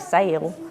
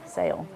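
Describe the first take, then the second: First: The word is drawn out into two syllables. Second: The word is said as one short syllable. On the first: The speaker calls it wrong. "we're kind of country, and sometimes we say sail" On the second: The speaker calls it right. "it's only one"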